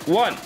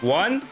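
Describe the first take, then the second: First: The word is said quickly. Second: The word is said slowly. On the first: The speaker calls it wrong. "me saying it fast, the countdown, isn't dramatic enough" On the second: The speaker calls it right. "But I will say it slow"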